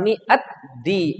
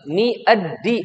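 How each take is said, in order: First: A t sound comes before di. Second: A d sound comes before di. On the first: The speaker calls it wrong. "bukan mi at di" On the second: The speaker calls it right. "Dal ketemu dal"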